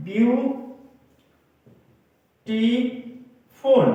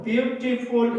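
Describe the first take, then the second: First: "beautiful" as view... टी... फुल, long pauses between; word broken up. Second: Said in the usual way. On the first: Shown as a demonstration. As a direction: break "beautiful" into three very slow, raised beats. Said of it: "किसी लफ्ज को तोड़ें". (Beautiful को तोड़कर, हर syllable पर रुककर) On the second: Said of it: "ये three syllabic word हैं".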